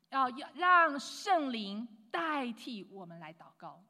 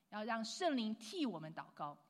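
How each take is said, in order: First: 要让圣灵代替我们来祷告 said slow and much louder, each word weighted; the emphatic take of 要让圣灵代替我们来祷告. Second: Said in the usual way. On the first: Shown as a demonstration. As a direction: lean hard on 圣灵 in 要让圣灵代替我们来祷告, slow and loud.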